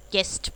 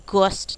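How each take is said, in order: First: गेस्ट with a short E; silent U demo. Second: गोस्ट with an O sound; wrong pronunciation. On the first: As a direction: say गेस्ट, not गोस्ट. (गेस्ट, ए की आवाज़ से) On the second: (गोस्ट, गलत ओ की आवाज़) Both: Shown as a demonstration. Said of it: "गोस्ट नहीं बोलते हो".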